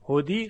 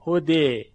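First: The word ends in a full 'ee' vowel. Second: The word ends in a vowel tilted toward 'e'. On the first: The speaker calls it wrong. "تبدیل به یاش نمیکنیم که بگیم هدی، هدی غلطه" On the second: The speaker calls it right. "الف رو میل بدیم به سوی یا"

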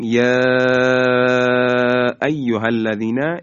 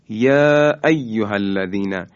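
First: The long vowel is stretched well beyond normal length. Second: The long vowel is held for a short, normal length. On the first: "این بیش از حد طبیعی هست" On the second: "این دو حرکت رو میگیم مد طبیعی"

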